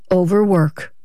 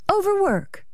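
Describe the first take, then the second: First: Said in the usual way. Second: Very high, soft disbelief; incredulous echo. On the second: Acted. Wife doubting her husband's excuse, incredulous and high. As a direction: echo it softly, much higher, disbelieving.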